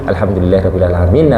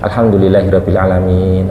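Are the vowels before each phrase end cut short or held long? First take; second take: cut short; held long. First: The vowels before each phrase end are cut short. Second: The vowels before each phrase end are held for two counts. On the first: The speaker calls it wrong. "Yang enggak boleh itu" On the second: The speaker calls it right. "Dua itu sudah boleh"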